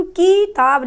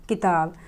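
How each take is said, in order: First: किताब as 'keeee-taab', first vowel drawn out loud and high; wrong long vowel. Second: किताब with a quick short 'i'; correct short vowel. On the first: Teacher shows learners what to avoid, exaggerated long 'kee'. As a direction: stretch the 'i' of किताब into a long 'ee'. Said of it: "नहीं बोलते हैं". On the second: Teacher models a short vowel for learners, quick 'ki'. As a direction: keep the first vowel of किताब brief. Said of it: "हम किताब बोलते हैं". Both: Shown as a demonstration.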